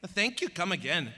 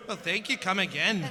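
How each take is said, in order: First: Toned-back Indian accent; Apu. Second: Attempted Indian accent, slightly raised; Apu. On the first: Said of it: "Yeah, he tones it back". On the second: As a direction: try out a cartoonish Indian accent. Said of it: "sounding like Apu from The Simpsons". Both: Shown as a demonstration.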